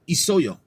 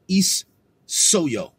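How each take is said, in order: First: The s sound is short and single. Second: The s sound is doubled and held long. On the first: The speaker calls it right. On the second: The speaker calls it wrong.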